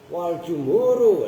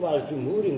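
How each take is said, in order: First: The last word ends with an 'u' sound. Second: The last word ends with an 'i' sound. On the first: The speaker calls it right. "nah itu jumhuru karena atof kepada si bawaihi" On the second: The speaker calls it wrong. "nggak boleh"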